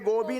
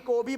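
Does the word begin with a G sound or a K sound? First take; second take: G; K. First: The word begins with a voiced g sound. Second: The word begins with a voiceless k sound. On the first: The speaker calls it wrong. "गोबी नाही" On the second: The speaker calls it right. "कोबी म्हणतात त्याला"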